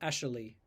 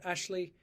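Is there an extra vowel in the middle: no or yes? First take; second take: yes; no. First: An extra vowel is inserted in the middle. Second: It is said with two syllables.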